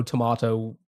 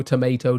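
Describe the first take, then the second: First: Tomato said with a broad ah vowel, toh-MAH-toh; tomahto. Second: Said in the usual way. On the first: Shown as a demonstration. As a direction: say tomato the British way, MAH in the middle. Tomayto tomahto idiom, contrasting vowels.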